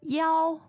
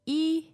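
First: The digit is pronounced yao. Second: The digit is pronounced yi. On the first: "you could say yao" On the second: "you could say e"

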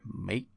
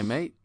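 First: The final T is clearly pronounced. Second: The final T is dropped. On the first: It sounds like an American faking an English accent. The speaker calls it wrong. "he pronounces the T in mate, and it's weird" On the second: It sounds like a natural English speaker. The speaker calls it right. "Like that. Just you don't do mate. The T"

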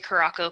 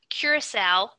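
First: The word is pronounced in a nonstandard 'caraco' form. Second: The word is pronounced in its standard form. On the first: The speaker calls it wrong. "I always say Caraco. People tell me I'm wrong" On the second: The speaker calls it right. "which I guess is how you pronounce it"

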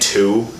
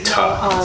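First: The word has a full 'oo' vowel. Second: The word has a short reduced 'uh' vowel. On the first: "instead of saying two, like T-O" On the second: "I say ta"

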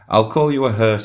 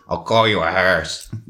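First: It is said in the speaker's ordinary voice. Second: It is said in a put-on character voice.

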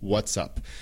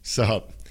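First: Both words are said fully, with the s. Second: It is squeezed into one short syllable. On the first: "It's what's up" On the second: "A veces simplemente como"

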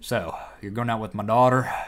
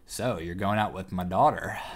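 First: It is said in a put-on accent. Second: It is said in the speaker's normal voice.

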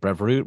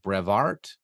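First: The name ends with a 'voort' sound. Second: The name ends with a 'vart' sound. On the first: The speaker calls it wrong. "which you keep pronouncing Brevoort" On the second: The speaker calls it right. "it's more like Brevart"

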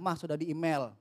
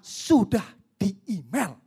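First: It is said lightly, without any emphasis. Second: It is said forcefully, with clear emphasis. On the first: The message passes by unnoticed. The speaker calls it wrong. "saya ngomong hanya sekedar lewat aja" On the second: The message is meant to be noticed. The speaker calls it right. "Beda kan"

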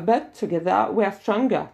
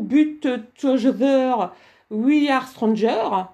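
First: It is spoken with a natural English accent. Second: It is spoken with a strong French accent. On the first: The speaker calls it right. "vous devez dire" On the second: The speaker calls it wrong. "Vous ne pouvez pas dire"

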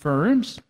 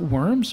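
First: It starts with a V sound, like Vorms. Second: It sounds like the English word worms. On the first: The speaker calls it right. "but Worms" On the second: The speaker calls it wrong. "spelled W-O-R-M-S, not Worms"

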